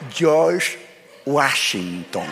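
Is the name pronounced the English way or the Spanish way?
English. The name is pronounced with English sounds. "Y él decía"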